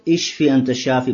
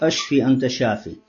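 First: The first word starts with an 'i' vowel. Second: The first word starts with an 'a' vowel. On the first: It asks to be healed. The speaker calls it right. "нужно говорить ишфи анта шафи" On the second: It asks to be killed. The speaker calls it wrong. "Это ошибка, говорит ашфи анта шафи"

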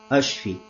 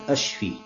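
The two takes are said the same way.

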